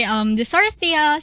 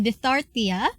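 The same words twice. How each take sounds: First: Dysarthria said clearly as dis-AR-thria, louder and higher; corrected dysarthria. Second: Dysarthria slurred as "detortia", tentative rising try; fumbled dysarthria. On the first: Lecturer retries the term for her class, careful and clear. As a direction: land dysarthria cleanly after the slip. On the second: Lecturer trips on the term before her class, fumbling. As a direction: stumble over dysarthria, half-swallowing it. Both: Real, not acted. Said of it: "ubos English ko".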